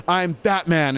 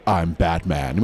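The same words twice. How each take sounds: First: Higher, youthful hero read; lighter Batman voice. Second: Low, deep heroic read; low Batman voice. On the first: Director approving the higher grown-up Robin Batman. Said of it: "There it is". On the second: At the read-through, deep heroic Batman voice. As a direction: drop it low and serious. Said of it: "I'm gonna do this nice low voice". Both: Shown as a demonstration.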